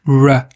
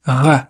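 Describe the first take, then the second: First: Isolated "R" as a rounded English sound; untrilled English "R", alone. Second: Isolated "R" as a uvular French sound; guttural throat "R", alone. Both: Shown as a demonstration. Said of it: "qui diffère du français à l'anglais".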